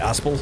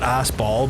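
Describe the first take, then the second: First: The second syllable sounds like 'el'. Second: The second syllable sounds like 'ball'. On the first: The speaker calls it right. "but like Aspel" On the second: The speaker calls it wrong. "not Aspball"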